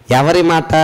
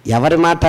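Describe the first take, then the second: No difference in how they are said.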